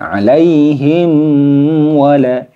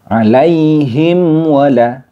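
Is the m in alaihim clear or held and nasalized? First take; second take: nasalized; clear. First: The m is held and nasalized. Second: The m is said clearly without holding. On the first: The speaker calls it wrong. "tidak boleh ditahan ... seperti itu tidak boleh" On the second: The speaker calls it right. "mim sukunnya dibaca jelas"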